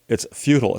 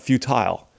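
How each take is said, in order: First: The second syllable is reduced and weak. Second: The second syllable is fully and clearly pronounced. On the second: "you're over-enunciating that second syllable"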